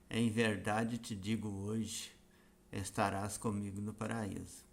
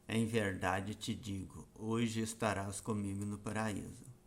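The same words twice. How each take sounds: First: The pause comes after the word hoje. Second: The pause comes before the word hoje.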